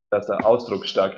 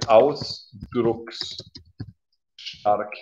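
First: Said in the usual way. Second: Ausdrucksstark spelled out very slowly, each syllable apart; slow pronunciation demo. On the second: Shown as a demonstration. Teacher offering the learner a new word, very slowly. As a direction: say ausdrucksstark at a crawl, part by part. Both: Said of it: "oder du kannst auch sagen".

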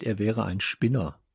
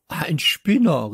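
First: Said in the usual way. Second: Slow, higher, louder outraged echo; indignant exclamation. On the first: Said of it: "„Ein Spinner“, rief ich". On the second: A narrator's reading. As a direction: echo the insult in disbelief. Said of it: "rief ich".

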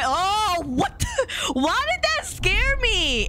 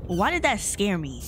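First: High startled squeal, drawn out. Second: Said in the usual way. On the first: Real, not acted. Player startled by the game, high shriek of alarm. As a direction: squeal it slowly in real shock.

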